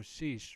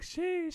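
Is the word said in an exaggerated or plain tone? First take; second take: plain; exaggerated. First: It is said in a plain, ordinary everyday tone. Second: It is said in an exaggerated, hyped slang tone. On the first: It is an everyday mild exclamation. "Normal ass tone" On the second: It is used as hyped slang. "your mom wouldn't be saying it like"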